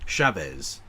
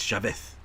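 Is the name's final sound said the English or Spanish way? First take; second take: English; Spanish. First: The final sound is an English-style Z. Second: The final sound is a Spanish-style S. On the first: "So like Chavez"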